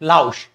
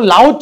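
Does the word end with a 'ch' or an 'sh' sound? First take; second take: sh; ch. First: The word ends with an 'sh' sound. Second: The word ends with a 'ch' sound. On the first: The speaker calls it right. "लाउश है" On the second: The speaker calls it wrong. "लाउच नहीं है ये"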